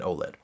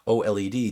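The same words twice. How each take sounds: First: It is said quickly as a single word. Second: It is said as separate letters, taking longer. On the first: The speaker calls it wrong. "people want to make it easier to say" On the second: The speaker calls it right. "OLED takes more time than"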